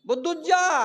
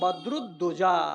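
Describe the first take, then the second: First: The name is clipped to two short syllables. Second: The name is said with all its syllables. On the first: The speaker calls it wrong. "বদুজ্জা নয় রে বাবা" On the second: The speaker calls it right. "আমার নাম বদরুদ্দোজা"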